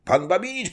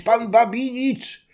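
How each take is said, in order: First: High call from afar to Babinicz; first call, high and rising. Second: Drawn-out high shout of Babinicz; slow, louder hail, stretching the name; second call, louder and slower. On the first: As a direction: cossack hailing the carriage as he rides up. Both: Acted. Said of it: "wołając".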